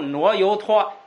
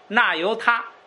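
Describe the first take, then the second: First: The word is said as nuo you tuo. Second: The word is said as na you ta.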